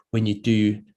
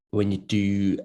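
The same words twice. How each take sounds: The two takes are said the same way.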